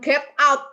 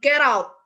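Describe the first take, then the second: First: The two words are said with a break between. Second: The two words run together without a break. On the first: The speaker calls it wrong. "bukan get out" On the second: The speaker calls it right. "tapi get out"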